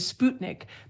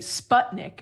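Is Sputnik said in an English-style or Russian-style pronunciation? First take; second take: Russian-style; English-style. First: The word is said with a Russian-style pronunciation. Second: The word is said with an English-style pronunciation. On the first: The speaker follows the source language's pronunciation. "you didn't want to use the Russian pronunciation" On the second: The speaker avoids sounding respectful to the source language. "U S speakers would say Sputnik"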